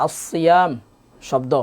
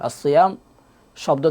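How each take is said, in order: The two takes are said the same way.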